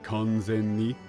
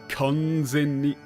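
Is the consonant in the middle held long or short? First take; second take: short; long. First: The consonant is short and unstretched. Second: The consonant is stretched out long. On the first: It simply means fully. "instead of saying kanzen ni" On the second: It means completely, with strong emphasis. "you are extending a, uh, a consonant ... To really put, like, some emphasis"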